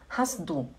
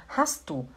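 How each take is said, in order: The two takes are said the same way.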